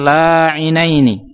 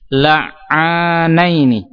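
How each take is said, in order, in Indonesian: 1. Tidak ada vokal 'a' panjang setelah bunyi 'ain. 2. Ada vokal 'a' panjang setelah bunyi 'ain. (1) "bukan la'inaini" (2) "Alifnya itu setelah huruf ain"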